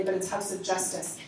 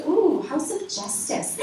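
First: Said in the usual way. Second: Slow, higher, drawn-out ooh of awe; impressed ooh. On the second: Retold or imitated. Mom reacting to the building's name, impressed and slow. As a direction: savour the name like it means something. She goes.

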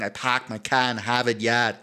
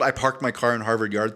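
First: Boston accent, every R dropped; broad Boston vowels, "pahk" and "yahd". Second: Said in the usual way. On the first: Shown as a demonstration. Quoting the old catchphrase for co-host, Boston accent. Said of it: "Boston would be like". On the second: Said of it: "it's the old".

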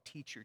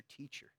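First: Said in the usual way. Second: Breathy whispered teacher. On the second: Shown as a demonstration. Pastor echoing the ruler's word teacher, whispered. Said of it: "'cause he called him teacher".

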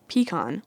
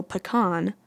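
First: "pecan" said PEE-kahn; stress on first syllable. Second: "pecan" said puh-KAHN; stress on second syllable. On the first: Vlogger explaining the English version, pecan stressed on PEE. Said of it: "switches the stress to the first syllable". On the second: Vlogger explaining the French version, pecan stressed on KAHN. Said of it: "puts the stress on the second syllable". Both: Shown as a demonstration.

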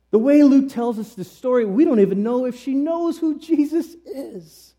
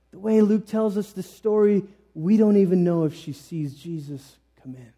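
First: Raised, high-pitched protest; high emphatic insistence. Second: Said in the usual way. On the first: Real, not acted. Preacher disputing that the widow had faith, high insistence. Insisting, then restated more calmly.

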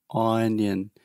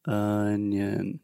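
First: "onion" with open ah vowel; saying ahh. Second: "Onion" with relaxed uh vowel; schwa sound. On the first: Retold or imitated. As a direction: imitate "onion" said as ahn-yun. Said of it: "she is saying ah". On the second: Shown as a demonstration. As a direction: say "Onion" as uhn-yun. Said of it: "this is the schwa sound".

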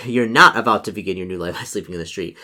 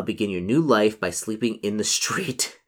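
First: Real chuckle, then firmly stress "not"; amused correction. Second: Said in the usual way. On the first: Real, not acted. Reader correcting the story for the player, amused correction. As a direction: laugh into it, leaning on "not". Laughing correction of the misread option.

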